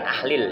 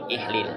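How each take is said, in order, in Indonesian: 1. Vokal pertama adalah bunyi 'a'. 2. Vokal pertama adalah bunyi 'i'. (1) "Bukan ahlil ya" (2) "tapi i, ihlil"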